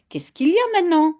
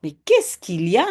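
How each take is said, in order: First: Mother's question. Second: Said in the usual way. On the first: Acted. Jip's mother asks Jip what's wrong, quick raised question. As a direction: ask it like a mother who is surprised. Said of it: "Dit la maman de Jip".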